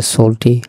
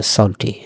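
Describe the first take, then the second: First: সল্টি with a close o, as "sole-tee"; first pronunciation. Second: সল্টি with an open aw, as "sawl-tee"; second pronunciation. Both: Shown as a demonstration. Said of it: "এই সল্টির দুটো উচ্চারণ আছে".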